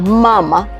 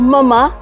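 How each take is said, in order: First: The stress is on the first syllable. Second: The stress is on the last syllable. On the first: It means he or she suckles. "la sílaba tónica es la penúltima" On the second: It means mother. "la sílaba tónica es la última"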